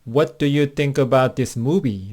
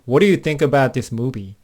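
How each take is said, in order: First: The sentence is said at a slower, careful pace. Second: The sentence is said quickly, with words run together.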